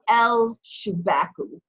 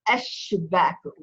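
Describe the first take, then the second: First: An l sound is heard before the sh. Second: No l sound; the sh sound is doubled. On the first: The speaker calls it wrong. "I don't say el shubaku" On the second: The speaker calls it right. "I say eshubaku"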